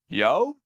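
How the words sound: It is said as a rising question.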